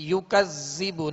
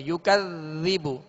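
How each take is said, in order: First: "युकज़्ज़िबु" with a buzzing z for dhal; "युकज़्ज़िबु" said with a whistling double z; wrong whistling z. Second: "युकज़्ज़िबु" with soft th-as-in-this, no whistle; "युकज़्ज़िबु" with a soft, lingering dhal. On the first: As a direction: show the mistake: sibilant zz in "युकज़्ज़िबु". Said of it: "इसमें सीटी की आवाज पैदा ना हो". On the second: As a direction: gently place tongue tip at upper teeth in "युकज़्ज़िबु". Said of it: "जाल को नरमी के साथ अदा करना है". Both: Shown as a demonstration.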